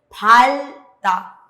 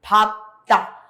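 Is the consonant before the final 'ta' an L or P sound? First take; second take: L sound; P sound. First: An L sound comes before the final syllable. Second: A P sound comes before the final syllable. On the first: The speaker calls it wrong. "No dije palta" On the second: The speaker calls it right. "dije papta. En este caso no suena la riel, sino suena la piep"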